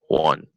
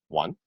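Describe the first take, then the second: First: It is said loudly and clearly. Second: It is said quietly and softly.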